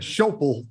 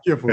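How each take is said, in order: First: The first vowel sounds like 'oh'. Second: The first vowel sounds like 'ih'. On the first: The speaker calls it wrong. "I always called it Schopel or Scopel or whatever" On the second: The speaker calls it right. "I've heard a, a pilot say is a Skipple"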